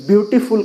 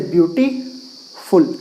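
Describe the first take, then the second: First: Said in the usual way. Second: ब्यूटीफुल cut in two, ब्यूटी, long pause, फुल; split into syllables. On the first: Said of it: "तो दो खंड है". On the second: Shown as a demonstration. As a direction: say ब्यूटीफुल slowly in two separate parts, breaking before फुल. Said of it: "दो part में काट सकते हैं". (ब्यूटीफुल को दो खंडों में तोड़कर, फुल से पहले रुककर)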